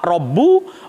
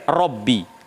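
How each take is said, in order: First: The word ends with an u vowel. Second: The word ends with an i vowel. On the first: The word is in the nominative case. "Boleh rofa" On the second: The word is in the genitive case. "boleh jer"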